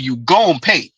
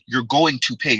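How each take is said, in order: First: "Going to" is clipped into a short "gon'". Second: Every word is said in full, unreduced. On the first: The speaker calls it right. "I say you gon' pay" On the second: The speaker calls it wrong. "y'all notice mister Z not pronouncing pronouncing it"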